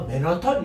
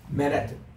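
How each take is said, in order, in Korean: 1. 한국식으로, 음절 하나씩 끊어서 말해요. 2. 미국식으로, 영어 강세를 살려서 말해요. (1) "맨하탄 이러니까 모르더라고" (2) "맨해튼 이러면은 완벽한 영어를 한다는 거죠"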